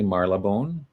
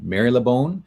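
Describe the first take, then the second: First: It is said the way people in England say it. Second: It is said in a non-English way. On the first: The speaker calls it right. "it's actually Marylebone, is how you would pronounce it in England" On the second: The speaker calls it wrong. "I was going to pronounce it Marylebone"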